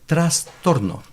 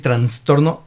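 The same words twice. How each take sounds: First: No n sound comes before the s. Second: An extra n sound comes before the s. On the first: The speaker calls it right. "Es trastorno" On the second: The speaker calls it wrong. "mucha gente dice trastorna con N"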